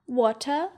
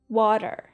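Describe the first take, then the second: First: British accent, with the r sound dropped. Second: American accent, with the r sound pronounced. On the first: "as British as possible" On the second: "as American as possible"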